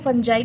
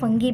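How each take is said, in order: First: It has a soft j sound and ends in 'eye'. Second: It has a hard g sound and ends in 'ee'. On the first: "इसको फंजाई भी पढ़ते हैं" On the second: "फंगी इसका सही pronunciation है"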